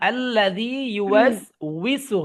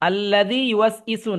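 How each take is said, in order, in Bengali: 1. শেষের অংশটি 'wisu' বলা হয়, 'w' ধ্বনি সহ। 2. শেষের অংশটি 'isu' বলা হয়, কোনো 'w' ধ্বনি ছাড়া। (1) "হবে" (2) "না"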